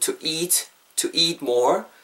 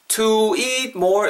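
First: The word eat carries the stress. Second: The word to carries the stress. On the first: The speaker calls it right. "eat에다 강세를 넣어주시면" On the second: The speaker calls it wrong. "이렇게 하지 마시고"

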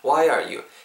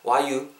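First: The word 'are' is clearly pronounced. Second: The word 'are' is dropped in fast speech. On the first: "이 정도로 발음하시면 돼요" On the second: "정말 빨리 발음될 때는 R을 그냥 발음 안 하고"

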